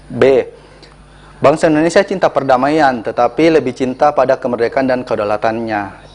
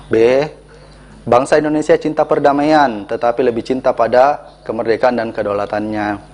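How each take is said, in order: The two takes are said the same way.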